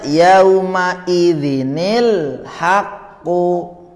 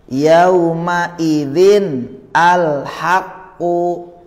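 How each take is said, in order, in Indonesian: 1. Kedua kata disambung dengan bunyi 'ni' tambahan. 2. Kedua kata dibaca terpisah, tanpa bunyi tambahan.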